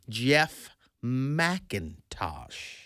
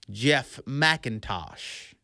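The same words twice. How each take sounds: First: The name is said very slowly. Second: The name is said at normal speed.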